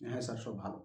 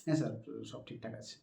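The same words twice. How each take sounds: First: Low, much softer, dull "হ্যাঁ sir, সব ভালো"; a bad way to answer the interviewer; flat, lifeless reply. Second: Soft, smiling "হ্যাঁ sir, সব ঠিকঠাক আছে"; polite smiling reply to the interviewer; with a light smile. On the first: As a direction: say it with no life at all. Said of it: "এটা কোনো বলার ধরন হলো?". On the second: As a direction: answer with a gentle smile in the voice. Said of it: "হালকা একটু smile থাকলো সেই সময়". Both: Shown as a demonstration.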